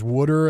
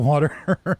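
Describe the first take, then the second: First: It is said in a Philadelphia accent. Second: It is said in a standard accent.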